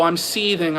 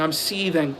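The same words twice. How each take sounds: First: Sarcastic "seething" said flatly; mock seething. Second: "seething" dropped soft and flat; quieter mock seething. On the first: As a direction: drily claim "seething", mockingly calm. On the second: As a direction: murmur "seething" with deadpan sarcasm.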